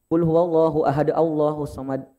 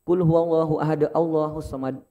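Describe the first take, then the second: Both takes have the same delivery.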